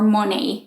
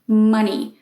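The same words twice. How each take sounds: First: The first vowel is not the short 'uh' sound. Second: The first vowel is a short 'uh' sound. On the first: The speaker calls it wrong. "It's not money" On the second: The speaker calls it right. "it's m, m, m, money"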